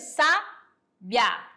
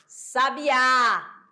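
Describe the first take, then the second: First: The stress is on the first syllable. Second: The stress is on the last syllable. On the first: "A sílaba com maior intensidade tá aqui, ó, sa" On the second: "a sílaba mais forte foi o quê? O A"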